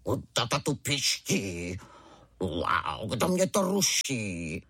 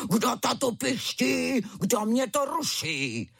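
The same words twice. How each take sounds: First: Slow, lowered mock tiger roar; a hint of a gruff young tiger; little tiger roaring like his father. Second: High, slow hammed-up cub roar; a hint of a fierce tiger cub; fierce little tiger roar. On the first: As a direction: play a cub trying to sound like his dad. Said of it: "zařval divné jako tatínek". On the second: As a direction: play the cub outdoing his father. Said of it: "zařval ukrutněji než tatínek". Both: A narrator's reading.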